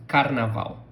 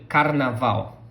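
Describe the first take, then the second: No difference in how they are said.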